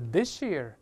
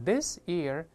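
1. s 和 y 合在一起，变成 sh 音。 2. 这两个词是分开的，s 音很清楚。

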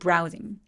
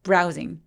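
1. 첫 음절은 세게, 두 번째 음절은 약하게 발음해요. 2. 첫 음절은 세게, 두 번째 음절은 약하게 발음해요.

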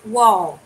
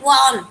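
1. Từ này kết thúc bằng âm L rõ ràng. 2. Từ này kết thúc bằng âm giống N.

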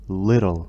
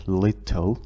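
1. الصوت الساكن في الوسط هو d خفيف. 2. الصوت الساكن في الوسط هو t واضح. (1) "تلفظ little" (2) "فلا تلفظ little"

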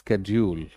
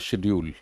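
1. यह अमेरिकी उच्चारण में कहा गया है। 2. यह ब्रिटिश उच्चारण में कहा गया है। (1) "अमेरिकन इंग्लिश में यही आ जाता है" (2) "बट स्टैंडर्ड ब्रिटिश में"

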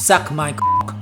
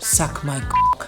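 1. พูดอย่างแข็งกร้าว น้ำเสียงโกรธ 2. พูดเบาๆ น้ำเสียงยั่วยวน (1) "อยากจะสะบดด่ามันเข้าไปตอบกลับมันไป" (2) "เป็นการเชิญชวนที่สื่อความหมายว่าอมคุณที"

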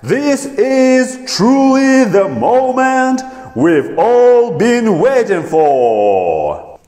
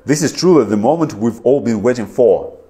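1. Медленно, последнее слово растянуто. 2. Быстро, без растянутых гласных. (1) "Видите, как for я протягиваю" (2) "Попробую я это сказать быстро"

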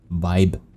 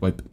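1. Es wird nach englischen Leseregeln gesprochen. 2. Es wird nach deutschen Leseregeln gesprochen.

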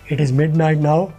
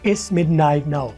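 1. इसे पूरा बोला जाता है, दो अलग शब्दों की तरह। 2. इसे छोटा करके एक छोटे अक्षर में बोला जाता है।

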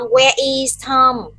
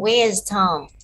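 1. Các từ where và is được nói riêng rẽ. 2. Where và is nối lại thành một âm tiết.

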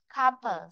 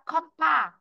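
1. Trọng âm ở âm tiết thứ nhất. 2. Trọng âm ở âm tiết thứ hai. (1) "bởi vì trong âm nó rơi vị trí thứ nhất" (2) "nó sẽ rơi vào vị trí thứ hai rồi"

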